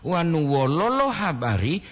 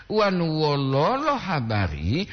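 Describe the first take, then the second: First: Wololo with short even O sounds, rising at the end; Gorontalo pronunciation. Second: Wololo slow, the first O drawn out, rising at the end; Gorontalo pronunciation. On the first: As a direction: say wololo quickly with short O for "sad news". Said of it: "sedih kabar". (wololo dengan O pendek dan cepat) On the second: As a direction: say wololo with a long first O for "how are you". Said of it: "bagaimana kabar?". (wololo dengan O pertama panjang, nada naik) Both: Shown as a demonstration.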